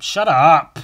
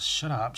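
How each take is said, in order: First: Much louder joking shout at himself; mock shout. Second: Said in the usual way. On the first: Real, not acted. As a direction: yell it to shut yourself up. Scolding himself, then shouting.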